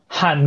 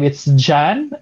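First: The name begins with an H sound. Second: The name begins with a J sound. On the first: "if you meet Spanish speakers, they say like Han" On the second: "in a Western perspective, it's Jan"

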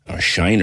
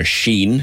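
First: The vowel is pronounced like 'eye'. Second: The vowel is pronounced like 'ee'. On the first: The speaker calls it wrong. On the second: The speaker calls it right. "Sheen is the correct pronunciation"

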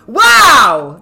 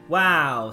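First: The wow sounds lively and excited. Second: The wow sounds flat and unenthusiastic.

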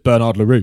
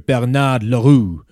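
First: The name is said with a plain English accent. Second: The name is said with an exaggerated French accent. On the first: This is the ordinary way to say the name. "it's just" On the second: Someone else says the name this way. "I love the way he pronounces the French names"

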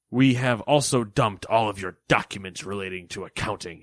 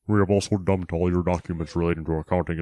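First: It is read in a plain, natural voice. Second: It is read in a put-on, distorted voice.

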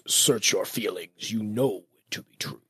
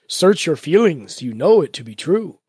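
First: It is said in a put-on character voice. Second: It is said in a normal voice.

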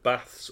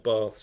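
First: It is said in a northern English accent. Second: It is said in a southern English accent.

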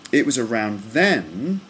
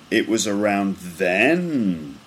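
First: The voice dips, then rises at the end. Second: The voice rises, then falls at the end. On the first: "then up again" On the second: "it goes straight and then it goes down a little bit and then up and then down"

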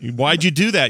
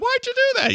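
First: It is said in a normal voice. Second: It is said in a higher voice.

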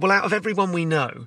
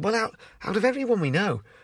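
First: It is said in the speaker's usual accent. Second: It is said in a soft, gentle Scouse accent.

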